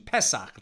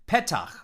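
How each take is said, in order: First: It is said in an Ashkenazi pronunciation. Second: It is said in a non-Ashkenazi pronunciation.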